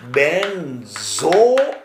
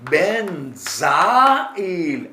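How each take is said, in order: First: "benzoyl" drawn out as ben-zo-il, with an O; careful pronunciation. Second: "benzyl" drawn out as ben-za-il, with an A; careful pronunciation. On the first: Teacher showing students how benzoyl is pronounced, slow and syllable by syllable. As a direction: sound out "benzoyl" slowly, rounded zo in the middle. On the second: Teacher contrasting benzyl with benzoyl for students, drawn out by syllable. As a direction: sound out "benzyl" slowly, open za in the middle. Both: Shown as a demonstration. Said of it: "આ કેવું ઉચ્ચાર થાય".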